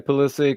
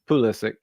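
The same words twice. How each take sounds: First: The name is said with an anglicized pronunciation. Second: The name is said with its original pronunciation. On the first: "but no, I would say Pulisic" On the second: "proper pronunciation"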